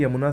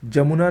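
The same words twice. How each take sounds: First: यमुना opening with a y glide; correct pronunciation. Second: जमुना opening with a j sound; hard j to start जमुना; wrong pronunciation. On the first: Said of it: "सही है". (यमुना में "य" की ध्वनि) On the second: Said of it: "नहीं". (जमुना में "ज" की ध्वनि) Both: Shown as a demonstration.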